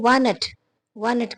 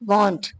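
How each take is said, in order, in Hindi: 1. इसमें 'ah' जैसी खुली आवाज़ है। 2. इसमें 'oh' जैसी गोल होंठों वाली आवाज़ है। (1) "बिल्कुल शुरू वाले सीखने वाले लोग ... बहुत ज्यादा खराब हो जाता है" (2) "ये ए चेंज होता हो जाता है ओ में"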